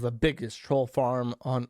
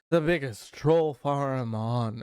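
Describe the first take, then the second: First: It is read in a plain, normal voice. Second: It is read in a put-on character voice. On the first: The speaker calls it wrong. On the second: The speaker calls it right.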